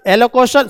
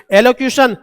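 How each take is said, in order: First: एलोक्यूशन slipped into "e-lo-ko-shan"; mispronounced word. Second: Said in the usual way. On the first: Real, not acted. Teacher misreading a synonym to students, एलोक्यूशन said as "elokoshan". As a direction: say एलोक्यूशन with a plain "ko" where "kyu" belongs. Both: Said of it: "sorry".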